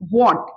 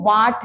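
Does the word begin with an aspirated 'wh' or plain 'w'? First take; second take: aspirated; plain. First: It starts with an aspirated 'wh' sound. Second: It starts with a plain 'w' sound. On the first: The speaker calls it right. "ये व्हाट है" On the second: The speaker calls it wrong. "इसको वाट नहीं करनी"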